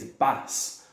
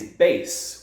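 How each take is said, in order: First: "bass" with short a, rhyming with "mass"; fish pronunciation. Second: "bass" with long a, rhyming with "face"; guitar pronunciation. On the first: Teacher showing students the sea fish word, "bass" with short a. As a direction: say "bass" with the vowel of "cat". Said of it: "two words that have this spelling". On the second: Teacher showing students the guitar word, "bass" with long a. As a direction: say "bass" exactly like "base". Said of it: "which is the type of guitar". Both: Shown as a demonstration.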